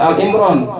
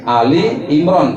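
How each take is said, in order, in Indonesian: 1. Kata pertama terdiri dari satu suku kata, tanpa i. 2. Kata pertama terdiri dari dua suku kata, diakhiri dengan i. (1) "bukan Al Imran" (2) "Ali Imran, keluarga Imran, itu yang benar"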